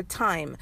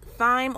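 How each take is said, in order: First: "thyme" said exactly like "time"; "thyme" with a plain T sound; T pronunciation. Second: "thyme" with the TH sounded, not a T; TH pronunciation. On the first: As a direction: start "thyme" with a hard T, silent H. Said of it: "I think it's thyme, actually". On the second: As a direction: say "thyme" starting like "thigh". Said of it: "I think it's pronounced thyme or thyme". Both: Shown as a demonstration.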